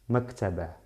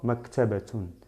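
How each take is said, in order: First: The word ends without the final -tun sound. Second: The word ends with a final -tun sound.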